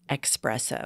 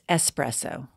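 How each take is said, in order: First: The first syllable sounds like 'ex'. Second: The first syllable sounds like 'es'. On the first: The speaker calls it wrong. "I've had it with people calling espresso" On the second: The speaker calls it right. "It's espresso"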